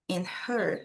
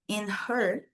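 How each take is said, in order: First: The h in 'her' is breathed out clearly. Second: The same.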